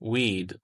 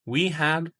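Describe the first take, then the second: First: The words merge into one short syllable. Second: Two full words are said separately. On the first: "मुख्तसर सूरत" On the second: "full form"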